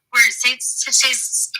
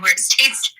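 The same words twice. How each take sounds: First: Tripping over the words; stuttering. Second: Said in the usual way. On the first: Real, not acted. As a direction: stumble and restart the phrase. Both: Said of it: "oh, I'm stuttering".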